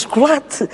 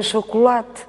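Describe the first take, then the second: First: Chocolate with reduced vowels, chucu-lat; common Portuguese pronunciation. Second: Chocolate with the first o sounded, cho-co-late; grandmother's pronunciation. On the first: Shown as a demonstration. Showing common Portuguese usage, chocolate with reduced vowels. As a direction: say chocolate with closed u sounds, slowly shown. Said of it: "o português comum não diz". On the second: Retold or imitated. Recalling a grandmother's word, chocolate with full vowels. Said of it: "tinha uma avó que dizia".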